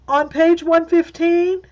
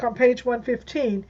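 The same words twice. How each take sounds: First: The voice goes up at the end. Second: The voice stays level and falls at the end. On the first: It asks to confirm what was just heard. "So you're asking a question to confirm what I just said" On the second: It states a fact. "So I might say"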